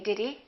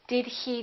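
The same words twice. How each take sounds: First: The h in 'he' is dropped. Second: The h in 'he' is clearly pronounced. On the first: The speech is casual and natural. "you will hear most Americans just say" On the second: The speech is careful and formal. "if you want to speak very carefully and really pronounce things and very formally"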